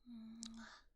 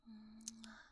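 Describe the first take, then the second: No difference in how they are said.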